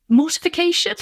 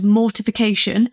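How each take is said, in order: First: Mortification with a doubtful question rise; unsure rising word. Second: Said in the usual way. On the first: Shown as a demonstration. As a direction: ask the word mortification back, rising high. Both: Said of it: "Is that a word?".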